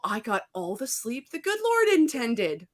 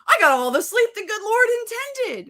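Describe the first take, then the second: First: It is said plainly, with ordinary energy. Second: It is said forcefully, with more power.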